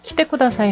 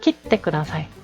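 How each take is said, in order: First: The 't' before 'te' is short, with no hold. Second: The 't' before 'te' is held for a beat. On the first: It asks someone to come. "키떼 쿠다사이 하면 와주세요죠" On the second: It asks someone to cut something. "잘라주세요 라는 표현"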